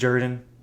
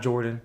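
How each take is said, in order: First: The name is said the local way. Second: The name is said the common way. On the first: This is how people at the stadium say it. The speaker calls it right. "they pronounce it Jordan" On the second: This is how outsiders usually say it. The speaker calls it wrong. "not Jordan"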